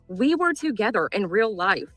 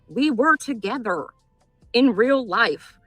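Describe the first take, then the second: First: It is said at a normal speed. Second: It is said slowly and deliberately.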